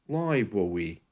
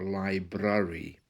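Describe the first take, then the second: First: The R sound turns into a W. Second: The R sound is hard and strong. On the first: "changing the R into a W" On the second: "and another with a hard R"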